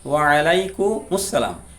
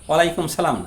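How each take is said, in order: First: Each part is separate, with a full 'as' syllable. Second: It runs together and drops the 'as' syllable. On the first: The speaker calls it right. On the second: The speaker calls it wrong.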